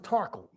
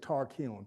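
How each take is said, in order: First: The word is said in the old-timey reduced way. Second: The word is said in full, ending in kiln. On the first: This is how old local people say it. "the old-timey people pronounce this tarkle" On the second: This is the academic form of the word. "when you see it academically, it's tarkiln"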